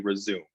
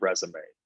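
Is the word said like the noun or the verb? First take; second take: verb; noun. First: It is said like the verb meaning continue. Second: It is said like the noun for a CV. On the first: The word was written without its accent marks. The speaker calls it wrong. "that screen reader will likely say resume" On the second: The word was written with its proper marks. The speaker calls it right. "instead of resume"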